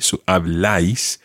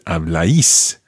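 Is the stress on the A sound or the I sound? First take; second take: A sound; I sound. First: The stress falls on the A sound. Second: The stress falls on the I sound. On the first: "On the A" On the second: "as opposed to"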